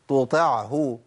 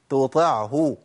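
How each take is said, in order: No difference in how they are said.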